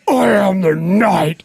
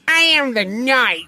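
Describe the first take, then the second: First: It is said straight, in Batman's voice. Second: It is said in a mocking imitation.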